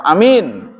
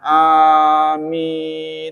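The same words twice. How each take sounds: First: The first vowel is said short. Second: The first vowel is held long. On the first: Trusted. "kalau amin yang dipercaya arti" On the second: Please grant our prayer. "Kalau a panjang amin itu yang kabulkan oleh Allah"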